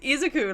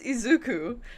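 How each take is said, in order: First: The u vowel is said short. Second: The u vowel is said long. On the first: The speaker calls it wrong. "I keep saying Izuku, Izuku like a fucking isekai. It's not" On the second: The speaker calls it right. "It's a longer U"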